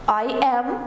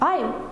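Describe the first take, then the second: First: Both words are said separately and in full. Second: The words are joined into one short syllable. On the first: "فرم اصلیش" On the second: "ببینید چقدر سریعتر میتونم تلفظ بکنم"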